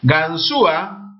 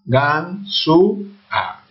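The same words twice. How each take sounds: First: Said in the usual way. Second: "Ganzúa" very slowly in three pieces, gan, zú, a; ganzúa split up. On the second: Shown as a demonstration. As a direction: pause between each syllable of "Ganzúa". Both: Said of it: "Se separa la U con la".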